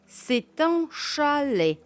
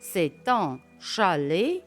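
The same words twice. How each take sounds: First: The voice falls at the end. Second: The voice rises at the end. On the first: It states a fact. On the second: It asks a question.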